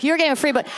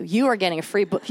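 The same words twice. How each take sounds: First: Higher, brighter repeat of the good news; getting a free book, said up and eager; excited announcement. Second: Said in the usual way. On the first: Real, not acted. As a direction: sell it with a grin.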